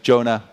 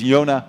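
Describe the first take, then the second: First: The name is said the English way. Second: The name is said the Dutch way. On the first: The speaker calls it wrong. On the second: The speaker calls it right.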